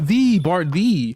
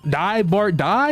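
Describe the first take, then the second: First: The word 'die' is said like 'dee'. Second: The word 'die' rhymes with English 'eye'. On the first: The speaker calls it right. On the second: The speaker calls it wrong.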